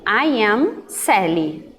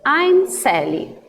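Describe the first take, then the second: First: The two words are said separately in full. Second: The two words merge into one contracted syllable. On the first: "que é a primeira forma completa" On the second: "E a contração"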